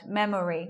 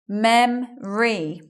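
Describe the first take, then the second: First: The word is said with three syllables. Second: The word is said with two syllables. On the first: The speaker calls it wrong. "We're not hearing it like that" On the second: The speaker calls it right. "We're not saying the O sound"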